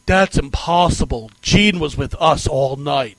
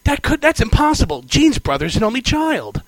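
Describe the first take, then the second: First: Bad [name] voice. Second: Mock [name] voice. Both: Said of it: "in that horrible [name] accent".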